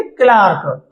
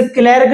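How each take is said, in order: First: क्लार्क with a long open "aa", like "klaark"; corrected pronunciation. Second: क्लर्क said with an "e" vowel, like "klerk"; rejected pronunciation. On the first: Teacher correcting the name for students, क्लार्क as "klaark". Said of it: "इसे क्लर्क नहीं बोलेंगे, क्लार्क". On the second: Teacher showing students what not to say, क्लर्क as "klerk". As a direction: give क्लर्क a short "kler" sound. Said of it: "इसे क्लर्क नहीं बोलेंगे". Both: Shown as a demonstration.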